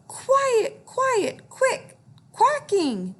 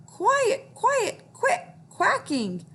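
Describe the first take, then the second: First: High, loud yell at the ducks; yelling quarterback. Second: Yelling quarterback. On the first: Acted. Quarterback yelling at noisy ducks, high shout. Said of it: "He would yell". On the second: Shown as a demonstration. Teacher shows kids the quarterback's high yell. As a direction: shout it high for the class to copy. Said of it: "Can you try that?".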